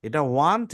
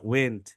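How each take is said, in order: First: ওয়ান্ট said as want with an a vowel; ওয়ান্ট with the wide a sound; want pronounced. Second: ওয়েন্ট said as wen with e vowel; ওয়েন্ট with an open e sound; went pronounced. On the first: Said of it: "দুইটা দুই ধরনের জিনিস". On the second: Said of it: "ওয়েন্ট কিন্তু এইভাবে হয়". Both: Shown as a demonstration.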